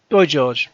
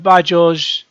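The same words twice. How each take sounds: First: Put-on "Boy George" with "Boy" rhyming with toy; "Boy" pronunciation. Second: "By George" with "By" said like "bye"; "By" pronunciation. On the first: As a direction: say "Boy" clearly as boy, then George. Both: Shown as a demonstration. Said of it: "they're saying By [name] 'cause [name]".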